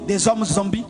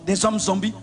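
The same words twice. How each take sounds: The two takes are said the same way.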